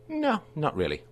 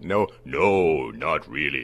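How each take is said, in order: First: It is said in a casual, ordinary voice. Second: It is said in a big booming voice.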